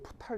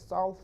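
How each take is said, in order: First: The word starts with a p sound. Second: The word starts directly with an s sound. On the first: The speaker calls it wrong. "이렇게 발음하면 안 돼" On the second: The speaker calls it right. "거기서는 다 이렇게 발음해"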